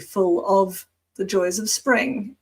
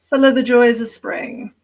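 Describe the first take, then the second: First: The word 'of' is said fully and clearly. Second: The word 'of' is reduced to a weak vowel. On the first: The speaker calls it wrong. "you probably wouldn't say" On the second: The speaker calls it right. "It would be fuller"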